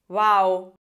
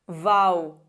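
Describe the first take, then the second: First: The first sound is a soft lip approximant. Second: The first sound is a voiced lip-teeth fricative. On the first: The speaker calls it wrong. "Ahora la he pronunciado como pronunciamos en español una B que está entre vocales" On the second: The speaker calls it right. "como una fricativa labiodental sonora"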